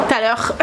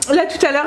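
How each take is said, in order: First: "tout à l'heure" slipping into a northern French accent, said with a laugh. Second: Said in the usual way. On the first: Real, not acted. Blogger notices her northern French accent slipping out. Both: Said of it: "mon accent du Nord qui ressort".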